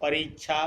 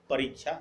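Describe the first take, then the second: First: परीक्षा with a short ई on री, wrong; परीक्षा, री cut short as the wrong form. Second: परीक्षा with a long ई on री; परीक्षा, री stretched as the correct form. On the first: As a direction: say परीक्षा with a clipped री as the mistake. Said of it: "हर्ष ईकार". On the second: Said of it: "दीर्घ ईकार". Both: Shown as a demonstration.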